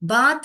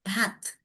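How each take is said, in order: First: The word ends in a plain t sound. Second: The word ends in an airy th sound. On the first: The speaker calls it wrong. "बात नहीं बोलने का, बात बोलोगे तो भी त त आएगा" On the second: The speaker calls it right. "मगर एक्चुअल प्रोनाउंसिएशन इसका bath"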